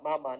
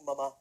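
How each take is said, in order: First: It is said in a plain, ordinary way. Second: It is said in a posh way, with stress. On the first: The speaker addresses his mother as usual. "Mula sa mama" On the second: The speaker talks like a rich person. "naging mama. Kasi ang mga yayamanin, mama eh"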